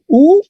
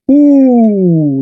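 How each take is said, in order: First: Said in the usual way. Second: Held long "U". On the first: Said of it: "Y tenemos U". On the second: Shown as a demonstration. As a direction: stretch the vowel "U" long.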